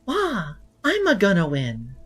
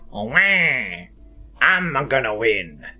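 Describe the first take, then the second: First: It is an impression of Peach. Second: It is an impression of Wario.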